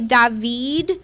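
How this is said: The name is pronounced the Hebrew way. "They say David"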